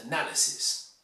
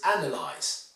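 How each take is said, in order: First: 'analysis' as a-NAL-ysis; second-syllable stress. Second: 'analyze' as AN-alyze; first-syllable stress. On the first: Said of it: "the noun is analysis". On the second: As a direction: punch AN at the start of 'analyze'. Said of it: "The verb is analyze". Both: Shown as a demonstration.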